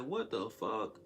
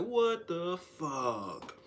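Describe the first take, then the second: First: Said in the usual way. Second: Very slow, drawn-out loud "What the fuck"; louder, much slower demand; getting loud. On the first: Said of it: "So I'm like". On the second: Retold or imitated. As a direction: drag each word out as you raise your voice. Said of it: "I started getting loud".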